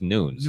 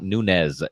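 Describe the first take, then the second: First: The name is said with a Portuguese-style pronunciation. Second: The name is said with a Spanish-style pronunciation. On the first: The speaker calls it right. "it's Nunes" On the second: The speaker calls it wrong. "Nunes is not"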